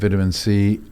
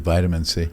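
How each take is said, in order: First: Vitamin is said in a British way. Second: Vitamin is said in an American way. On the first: "you've got me talking like a Brit" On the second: "we say vitamin C"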